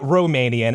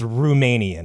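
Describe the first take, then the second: First: The first syllable sounds like 'roe'. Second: The first syllable sounds like 'rum'. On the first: It refers to the country's people. "It's not Romanian as in the ethnicity" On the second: It refers to a made-up rum-based place. "It's rum. Imagine that word with a U instead of an O"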